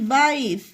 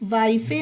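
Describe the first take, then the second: First: The word ends without a final vowel sound. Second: The word ends with an extra final vowel sound. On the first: The speaker calls it right. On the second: The speaker calls it wrong.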